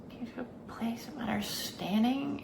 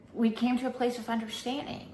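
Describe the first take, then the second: First: Whispered echo, soft and breathy. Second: Said in the usual way. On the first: Shown as a demonstration. Vlogger echoing her own words to the viewer, whispering. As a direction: repeat it as a hushed aside.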